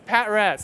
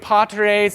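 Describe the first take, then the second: First: It is said as two parts, pat res. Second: It is said like the Latin word patres. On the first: It is read as short for pattern res. The speaker calls it right. "So pattern res, pat res" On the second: It is read as the Latin word for fathers. The speaker calls it wrong.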